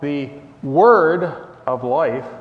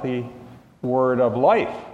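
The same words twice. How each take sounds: First: The stress falls on the word "word". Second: The stress falls on the word "life". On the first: The Word refers to Jesus. "put the emphasis on word" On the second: The focus is on life itself. "put the emphasis on life"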